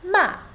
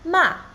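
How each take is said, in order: First: The pitch falls sharply from high to low. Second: The pitch falls sharply from high to low.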